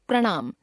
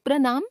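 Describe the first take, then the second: First: Said in the usual way. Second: प्रणाम with dental n; tongue on the teeth for the n of प्रणाम; mispronounced nasal. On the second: Shown as a demonstration. Teacher showing a common error, प्रणाम with dental n. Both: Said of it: "नासिक्य व्यंजन संबंधी अशुद्धियां".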